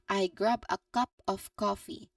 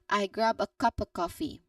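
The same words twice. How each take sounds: First: It is slow, with a clear f in 'of'. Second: It is smooth, with the f in 'of' dropped. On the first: "say very slowly and distinctly" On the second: "the natural elided form"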